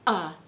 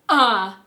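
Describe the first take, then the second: First: It starts with a light glottal catch. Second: It starts with a strong glottal catch. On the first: "beginning to exhale just a little" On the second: "or a lot"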